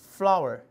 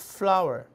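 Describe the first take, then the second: Both takes have the same delivery.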